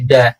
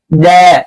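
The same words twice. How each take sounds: First: The local-accent "da" to avoid; wrong pronunciation. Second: "da" from the tongue tip, a bit slow and firm; a crisp Arabic "da"; correct pronunciation. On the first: Teacher shows students the Indonesian-style wrong da. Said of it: "nggak boleh da". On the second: Teacher shows students the correct firm da. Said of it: "tapi da". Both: Shown as a demonstration.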